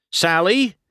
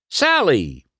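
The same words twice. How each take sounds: First: High searching call, rising; Sally called with a questioning lift. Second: Higher call, falling at the end; Sally called with a dropping end. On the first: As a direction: call Sally as if looking for her. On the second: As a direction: call Sally firmly into the crowd. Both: A narrator's reading. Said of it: "McQueen called".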